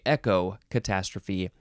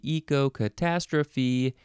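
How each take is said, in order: First: The first part sounds like the word 'echo'. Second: The first part does not sound like 'echo'.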